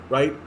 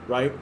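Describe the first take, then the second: Both takes have the same delivery.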